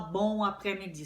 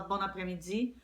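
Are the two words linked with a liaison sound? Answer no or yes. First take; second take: no; yes. First: The words are said separately without a linking sound. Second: An n sound links the two words together. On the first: The speaker calls it wrong. "no geral, você não vai falar bom après-midi" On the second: The speaker calls it right. "Você acaba dando uma liaisonzinha"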